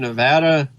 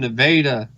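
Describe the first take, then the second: First: Nevada is said the common way, like the state. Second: Nevada is said the local Missouri way. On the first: This names the well-known western state. "we're not from Nevada" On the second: This names the small town in Missouri. "We're from Nevada"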